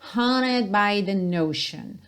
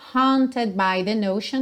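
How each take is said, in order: First: The T in haunted is nearly silent. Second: The T in haunted is clearly pronounced.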